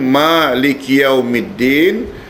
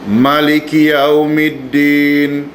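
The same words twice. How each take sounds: First: The first vowel of Malik is long. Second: The first vowel of Malik is short. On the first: Allah is the owner of that day. "dengan bacaan panjang" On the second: Allah is the king who rules that day. "kalau ada yang baca ma-nya pendek"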